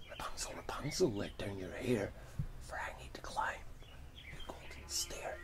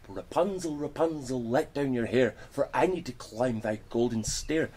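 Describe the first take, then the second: First: Hushed whispered chant; whispered call. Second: Loud sing-song call up the tower. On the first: Retold or imitated. Prince overhears witch's call. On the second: Acted. Witch calls up to tower.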